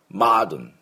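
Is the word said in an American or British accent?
American. The first vowel is open, close to ah. "アメリカ人の音でした今のは"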